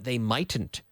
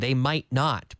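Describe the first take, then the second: First: Might not is contracted into one word. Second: Might not is said as two full words. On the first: "I don't use that contraction" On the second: "mightn't means they might not"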